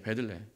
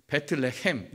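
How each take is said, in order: First: Said in the usual way. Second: "베틀레헴"을 베트와 레헴으로 나누어 발음; 히브리어식 발음. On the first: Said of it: "히브리어로 보시면". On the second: Shown as a demonstration. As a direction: say "베틀레헴" the Hebrew way, with a T sound after 베. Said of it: "히브리 측으로 읽으면 이거예요". ("베틀레헴"을 히브리어식으로 또박또박)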